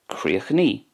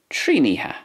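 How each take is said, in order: First: It ends in a long 'ee' vowel. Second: It has a shortened middle ending in 'iha'. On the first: "In Connacht then" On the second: "In Ulster then, it's Tríniha"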